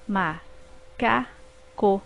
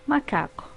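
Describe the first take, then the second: First: Ma-ca-co drawn out slowly in three beats; slow syllables. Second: Said in the usual way. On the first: Shown as a demonstration. Teacher slowly splitting macaco into syllables. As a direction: stretch ma-ca-co one syllable at a time. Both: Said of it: "formadas por três sílabas".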